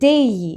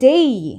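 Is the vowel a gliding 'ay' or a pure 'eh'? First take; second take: gliding; gliding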